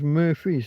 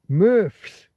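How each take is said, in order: First: The name is said with two syllables. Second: The name is said with one syllable. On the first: The speaker calls it wrong. "everyone says Murphy's" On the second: The speaker calls it right.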